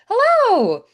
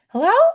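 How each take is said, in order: First: It sounds bright and excited. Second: It sounds puzzled and questioning. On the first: The speaker is thrilled to see the listener. "like, I'm so excited to see you" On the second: The speaker cannot tell if anyone is there. "I can't hear you on the phone"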